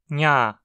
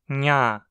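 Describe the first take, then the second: Both takes have the same delivery.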